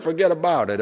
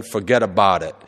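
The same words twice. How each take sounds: First: "Forget about it" said as a single run-together Brooklyn word; one quick Brooklyn word, "Forget about it"; Brooklyn fuhgeddaboudit. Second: "forget about it" run together as one Brooklyn word; Brooklyn fuhgeddaboudit. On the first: Shown as a demonstration. Showing the congregation the Brooklyn one-word version. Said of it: "It's just one word". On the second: Retold or imitated. Reading the Brooklyn sign in a Brooklyn accent. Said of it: "And it's all one word".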